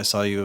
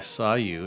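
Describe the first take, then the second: First: It is rushed and mumbled with hesitations. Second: It is spoken slowly and clearly. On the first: The speaker calls it wrong. "They mumble it, they fumble their words" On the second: The speaker calls it right. "Just slow down"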